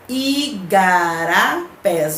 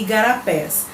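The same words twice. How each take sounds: First: Igarapés stretched slowly, syllables apart; teacher slowly sounding out each syllable of "igarapés". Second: Said in the usual way. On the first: Shown as a demonstration. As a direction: break "igarapés" into slow, distinct syllables. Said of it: "só que separando a sílaba".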